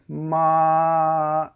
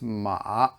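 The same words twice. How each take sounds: First: The pitch stays high and level. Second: The pitch dips low, then comes up. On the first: "that's the first tone. Ma, and it's just cruising, steady" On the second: "The third tone is it's a dipping tone, so it goes like this"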